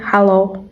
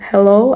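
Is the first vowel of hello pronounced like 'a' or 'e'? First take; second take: a; e. First: The first vowel sounds like 'a' in Singlish. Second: The first vowel sounds like 'e' in standard English. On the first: "in Singlish might be pronounced differently as hallow" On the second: "The simple hello in English"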